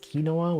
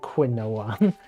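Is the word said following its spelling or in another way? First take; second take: another way; following spelling. First: The word is said unlike its spelling. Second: The word is sounded out following its spelling. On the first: "It's pronounced quinoa, which is kind of weird to me" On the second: "I always feel like I want to pronounce it quinoa"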